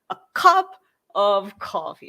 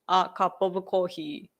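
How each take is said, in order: First: The syllables vary in stress and length. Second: Every syllable gets equal length and stress. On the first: "So it's in English, it's a cup of coffee" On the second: "when Japanese people read it ... Like everything is the uh uh uh uh"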